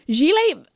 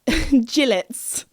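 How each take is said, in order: First: It is said in a posh, French-like way. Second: It is said in a plain, English-like way. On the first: This is the speaker's own pronunciation. "when I say it, it sounds very posh. Because isn't that like how the French say it?" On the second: This is how another family pronounces it. "they pronounce gilet as gillets"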